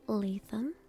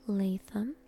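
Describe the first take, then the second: No difference in how they are said.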